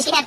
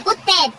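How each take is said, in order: First: "كتاب" said as kitab, with an i after the k; wrong vowel, i. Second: "كتاب" said as kuttab, with a u after the k. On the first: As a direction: say "كتاب" like the word for book, ki-. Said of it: "كو مش كتاب". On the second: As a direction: say "كتاب" opening on "kut-", not "kit-". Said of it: "كتاب بضم الكاف". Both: Shown as a demonstration.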